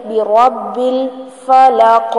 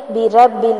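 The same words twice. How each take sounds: First: بی رب الفلق joined, with a full heavy ra; the correct way to read بی رب الفلق. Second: بی رب ال chopped apart wrongly; the wrong way to read بی رب ال; wrong split reading. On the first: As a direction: read بی رب الفلق smoothly, slowly, with a thick ra. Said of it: "را کو موٹا پڑھیں گے". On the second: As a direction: break بی رب ال into separate pieces. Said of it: "نہیں پڑھیں گے". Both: Shown as a demonstration.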